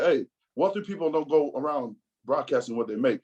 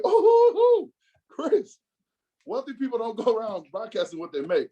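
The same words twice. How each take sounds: First: Said in the usual way. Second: Shrill high mocking echo on the oh. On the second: Teasing his friend by parroting his words, mocking. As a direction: parrot his line back in a teasing sing-song. Mock repeat of friend's line.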